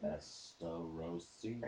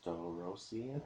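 First: The word is said more slowly. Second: The word is said at normal speed.

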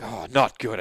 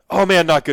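First: It sounds mopey and gloomy, like Eeyore. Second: It sounds light and casual.

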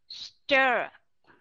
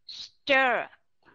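First: The vowel is reduced to a light schwa. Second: The same.

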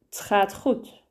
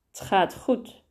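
First: The word het ends in a very soft t. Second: The word het ends in a very soft t.

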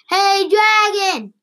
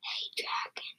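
First: It is shouted very loudly. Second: It is said very softly.

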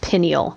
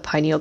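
First: The first syllable does not sound like pine. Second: The first syllable sounds like the word pine. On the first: The speaker calls it wrong. "not pineal. That is a personal peeve of mine" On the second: The speaker calls it right. "I'm saying pineal on purpose. That is because it looks like a pine cone"

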